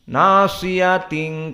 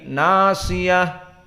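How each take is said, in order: First: The word ends with a t sound. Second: The word ends with an h sound. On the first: The word is joined to the next word. "Jika disambung dia menjadi tak" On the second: The reader stops on this word. "di saat diwakafkan menjadi ha"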